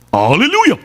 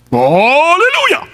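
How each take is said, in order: First: Said in the usual way. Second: Slow, high, loud drawn-out "Hallelujah"; louder hallelujah. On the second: Retold or imitated. Man told by preacher to shout it louder, drawn-out loud cry. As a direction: stretch "Hallelujah" long and call it out louder. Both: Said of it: "Kulakasan mo pa".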